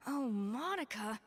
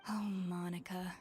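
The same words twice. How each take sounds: First: Slow, drawn-out exasperated Oh, Monica!; head chef losing patience; exasperated cry. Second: Exasperated whisper before the outburst; whispered dismay. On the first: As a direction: let the exasperation burst out. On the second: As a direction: breathe it out, barely voiced. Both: Acted. Chef reacts to the note.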